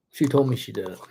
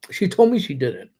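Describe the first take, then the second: First: A teasing whispered repeat; whispered aside. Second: Said in the usual way. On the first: Shown as a demonstration. Streamer to viewers about Maria, whispered. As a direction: whisper it like a secret to the camera.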